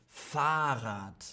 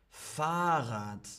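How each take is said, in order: Both takes have the same delivery.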